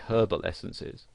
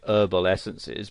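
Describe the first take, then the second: First: It is said with a pronounced h. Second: It is said with a silent h.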